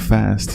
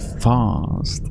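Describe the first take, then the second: First: The vowel is a short, flat American a. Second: The vowel is a long, broad British ah. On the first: "Instead of fast" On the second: "like British"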